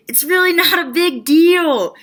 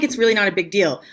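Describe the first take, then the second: First: High, loud, drawn-out announcement; slow, raised-pitch mock proclamation; mock big reveal. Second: Said in the usual way. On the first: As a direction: proclaim the secret with exaggerated force.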